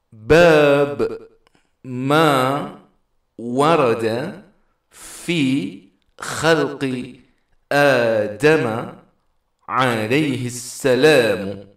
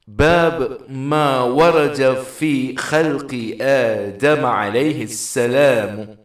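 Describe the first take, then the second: First: The phrase is split into separate chunks with pauses. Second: The phrase flows continuously without any pauses. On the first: "Kalau dari teks judul ini kita penggal-penggal, maka bunyinya seperti ini" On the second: "Kalau dibaca secara terus"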